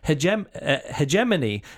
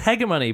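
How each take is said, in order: First: The G is pronounced soft, like in gem. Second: The G is pronounced hard, like in go. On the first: This is how the speaker has always heard it. "that's where I'm thinking that soft G comes in" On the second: This is how the narrator says it. "she's always hegemony"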